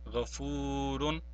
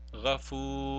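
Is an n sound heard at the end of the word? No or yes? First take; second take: yes; no. First: The word ends with a clear n sound. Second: The word ends without any n sound. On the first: The word stands on its own. "we will pronounce the noon tanween and say it as Ghafurun" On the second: The word is followed by a ra. "we will not pronounce the tanween here and only say Ghafur"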